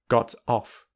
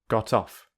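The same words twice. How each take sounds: First: The two words are said separately. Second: The two words run together smoothly. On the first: "without linking" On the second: "with linking"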